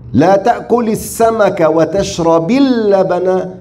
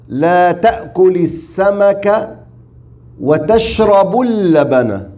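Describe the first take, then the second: First: The verb ends without a u vowel. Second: The verb ends with a u vowel. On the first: Avoid both the fish and the milk. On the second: Drinking the milk alone is allowed.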